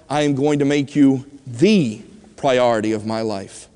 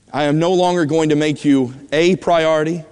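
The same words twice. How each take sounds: First: THE set apart, said as "thee"; stress on THE. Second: A set apart, said as "ay"; stress on A. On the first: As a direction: hit THE and pause after it. Contrasts "the" with "a" priority. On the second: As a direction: lean on the word A. Contrasts "a" with "the" priority. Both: Retold or imitated.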